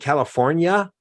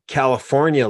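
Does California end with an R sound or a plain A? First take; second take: plain A; R sound. First: The word ends with a hard A sound. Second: The word ends with an added R sound. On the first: The speaker calls it right. "And I like hard A" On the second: The speaker calls it wrong. "There's no R on California"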